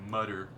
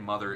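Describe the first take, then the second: First: The middle consonant is a clear t sound. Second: The middle consonant is a normal th sound.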